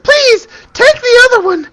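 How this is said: It is said in a high-pitched girl voice.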